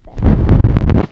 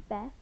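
First: BESTIES yelled out, airy and loud; excited shout of Besties. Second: Said in the usual way. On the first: Pretend. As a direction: blast the word Besties. Repeats besties loudly.

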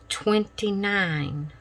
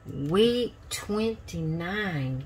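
First: Said in the usual way. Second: "Week twenty-nine" stretched out slow and soft; slow soft repeat. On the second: Shown as a demonstration. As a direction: draw out "Week twenty-nine" slowly and softly. Repeats week number, drawn out.

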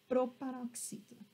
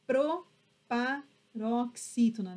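First: Said in the usual way. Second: Proparoxítona slowly, pro - pa - roxítona; teacher sounding out proparoxítona in chunks; syllable by syllable. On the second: Shown as a demonstration. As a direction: break proparoxítona into measured pieces.

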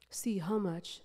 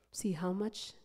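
No difference in how they are said.

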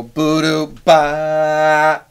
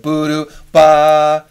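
First: Scat it building to a louder ba; sung figure that swells; crescendo to loud. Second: Scat building to a loud ba; sung crescendo. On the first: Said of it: "you could put a forte at the end". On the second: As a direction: swell the last note hard. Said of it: "a little more expressive if they crescendo". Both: Shown as a demonstration.

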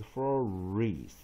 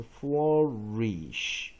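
First: Flourish as FLOR-EESS, ending in s; Old French flourish, two drawn syllables; Old French pronunciation. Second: Flourish drawn out as FLOR-EESH; slow demonstration of flourish with final SH; modern English ending. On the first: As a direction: end flourish on s, without the sh. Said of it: "来自古法文". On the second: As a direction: end flourish on a long sh. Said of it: "那刚才我们看". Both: Shown as a demonstration.

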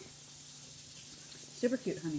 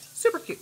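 First: Whispered, very slow and soft; a hushed, drawn-out aside. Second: Squealed. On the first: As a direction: breathe it out under your breath. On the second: Gushing over project. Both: Real, not acted.

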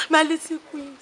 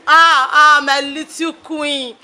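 First: Said in the usual way. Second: Slow drawn-out lament over "my little queen". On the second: Acted. Mother grieving her daughter, slow drawn lament. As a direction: stretch "my little queen" out slowly, mourning.

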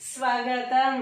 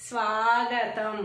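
First: స్వాగతం said with a short a, as svagatam; loud, careful స్వాగతం with the first vowel kept short; sva-ga-tam, no long aa in స్వాగతం. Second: స్వాగతం slowly, with a drawn-out aa; slow svaa-gatam, holding the aa in స్వాగతం; long first vowel. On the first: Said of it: "ఎంత తేడా ఉంది". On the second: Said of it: "దీర్ఘం ఇస్తే సా". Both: Shown as a demonstration.

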